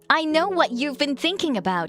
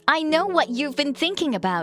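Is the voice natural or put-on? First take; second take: put-on; put-on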